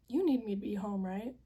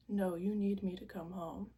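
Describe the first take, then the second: First: Asking, voice lifting hopefully; hopeful question. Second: "need" leaned on, firm; insistent, stress on need. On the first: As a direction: ask it, fishing for a yes. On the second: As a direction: press hard on "need". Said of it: "like, you're fine". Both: Retold or imitated.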